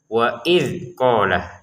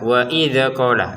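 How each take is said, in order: First: The consonant closing 'idz' is held without bouncing. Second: The consonant closing 'idz' is bounced with a vowel. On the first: The speaker calls it right. "Nah, seperti itu" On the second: The speaker calls it wrong. "jangan dibaca wa idza qala... Dalnya jangan dipantulkan"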